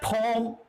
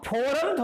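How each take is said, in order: First: The word is said in an English accent. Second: The word is said in a Hindi accent. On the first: This is the word as English has it. The speaker calls it right. "फॉरम को English में word क्या है, फॉर्म" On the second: The speaker's mother tongue shapes the word. The speaker calls it wrong. "अब फॉरम थोड़ी होता है"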